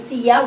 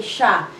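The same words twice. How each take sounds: First: Siya said in two syllables, si-ya; full form. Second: Siya said as one syllable, sya; contracted form. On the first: Teacher shows the full written form of siya. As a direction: say siya fully as si-ya with a light rise. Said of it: "Instead of saying". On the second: Teacher shows the spoken contraction of siya. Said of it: "we say". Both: Shown as a demonstration.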